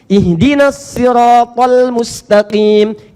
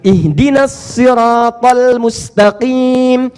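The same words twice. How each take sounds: No difference in how they are said.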